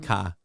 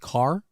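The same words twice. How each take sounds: First: The vowel is said the East Coast way. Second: The vowel is said the Midwestern way. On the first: The speaker calls it wrong. "and not get in the car" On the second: The speaker calls it right. "it's pronounced car"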